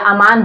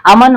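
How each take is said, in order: First: अमान with a long second vowel. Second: अमन with short, unstretched vowels. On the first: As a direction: stretch the maa in अमान. (अमान, मा को लंबा खींचकर) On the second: (अमन, छोटे स्वर के साथ) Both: Shown as a demonstration. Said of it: "उससे कोई मतलब नहीं है".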